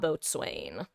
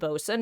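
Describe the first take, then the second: First: It is said as boat plus swain. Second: It is said as two short syllables, bosun. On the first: The speaker calls it wrong. "not boatswain" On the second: The speaker calls it right. "it's pronounced bosun"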